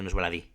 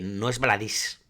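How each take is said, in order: First: The last word ends without an s sound. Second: The last word ends with an s sound. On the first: The speaker calls it right. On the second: The speaker calls it wrong.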